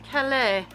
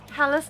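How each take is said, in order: First: It is said with a French pronunciation. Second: It is said with an English, anglicized pronunciation. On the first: This is how the name is said in France. The speaker calls it wrong. "how it is pronounced over in France" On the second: This is how locals say the name. The speaker calls it right. "It is Calais"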